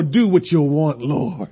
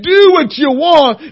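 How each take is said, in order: First: Softer, lower, giving up; resigned surrender. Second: Fervent cry. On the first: Preacher surrendering to God, soft and resigned. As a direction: let it go quietly to God. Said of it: "That's when I didn't care anymore". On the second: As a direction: throw it out to God in full release. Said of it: "And when I said". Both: Retold or imitated.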